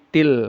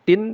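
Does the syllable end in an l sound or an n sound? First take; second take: l sound; n sound. First: The syllable ends with an l sound. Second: The syllable ends with an n sound. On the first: The speaker calls it right. "tapi til" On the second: The speaker calls it wrong. "Tidak dibaca tin"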